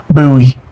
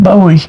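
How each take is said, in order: First: "Bowie" with an OO vowel, as BOO-ee; authentic pronunciation. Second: "Bowie" with a long O, as BOH-ee; familiar pronunciation. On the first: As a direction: say "Bowie" to rhyme with gooey. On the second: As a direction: say "Bowie" with first syllable like "bow" in rainbow. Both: Shown as a demonstration. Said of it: "That's how you really say it".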